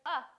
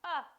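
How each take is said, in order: First: The vowel is short, a brief uh sound. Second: The vowel is short, a brief uh sound.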